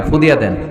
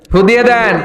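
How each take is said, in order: First: Said in the usual way. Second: Higher, louder imitated demand; mock loud plea. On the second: Parent asking the cleric to blow a blessing, loud mock plea. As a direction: call out the request, imitating an eager parent.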